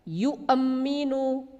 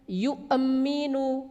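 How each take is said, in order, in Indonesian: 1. Hentian glotis dilepas dengan gema memantul. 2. Hentian glotis dilepas dengan gema memantul.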